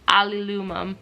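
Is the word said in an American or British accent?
British. It is said in a British accent.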